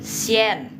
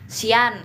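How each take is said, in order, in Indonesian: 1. Vokal setelah s itu 'e'. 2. Vokal setelah s itu 'a'. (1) "Ini sien" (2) "Banyak nih teman-teman pemula yang bilang sian"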